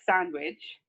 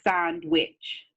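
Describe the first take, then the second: First: It is said smoothly as one word. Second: It is split into two separate words. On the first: "instead of like sandwich" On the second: "she breaks it into two words"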